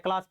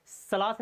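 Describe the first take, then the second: First: क्लास said with a clear k sound; correct reading. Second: सलास said with an s sound, no k; wrong reading. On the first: Teacher giving students the right reading, क्लास with k. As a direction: say क्लास properly, k first. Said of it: "क्लास पढ़ते हैं". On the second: Teacher showing students the wrong reading, सलास with s. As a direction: mispronounce it as सलास on purpose. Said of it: "सलास नहीं पढ़ते हैं". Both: Shown as a demonstration.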